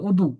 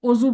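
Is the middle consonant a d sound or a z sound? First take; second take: d sound; z sound. First: The middle consonant is a d sound. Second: The middle consonant is a z sound. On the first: This is how it is really said in the language. The speaker calls it right. "এটা আসলে দদ দিয়ে অদু" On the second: This is how people in the speaker's country say it. The speaker calls it wrong. "আমরা যেরকম অজু বলি"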